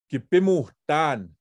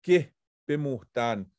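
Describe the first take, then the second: First: Kipimuhtan said with a firm fall; teaching kipimuhtan; Cree word. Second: Kipimuhtan drawn out slowly; slow Cree word. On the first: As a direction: model kipimuhtan, key-pim-uh-tan. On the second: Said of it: "So you are walking". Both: Shown as a demonstration.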